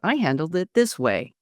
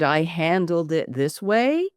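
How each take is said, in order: First: The voice falls at the end like a statement. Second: The voice rises at the end like a question. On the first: The speaker sounds sure of the claim. The speaker calls it right. "as an affirmative statement so it doesn't sound like a question" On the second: The speaker sounds unsure, as if asking. The speaker calls it wrong. "upspeak as if you're asking a question"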